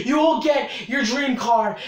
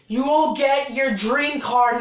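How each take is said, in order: First: Shouted hype promise. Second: Said in the usual way. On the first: Acted. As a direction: yell it like an ad pitch.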